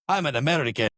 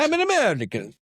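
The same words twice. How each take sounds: First: It is said with a Russian-sounding accent. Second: It is said with an Italian-sounding accent.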